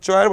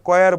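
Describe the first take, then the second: First: The word begins with a 'ch' sound. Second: The word begins with a 'k' sound. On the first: The speaker calls it wrong. "উচ্চারণকে চয়ার বলে, চয় না" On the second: The speaker calls it right. "এটা আসলে কয়ার বলা হয় উচ্চারণটা"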